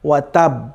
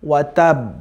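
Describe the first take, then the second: The two takes are said the same way.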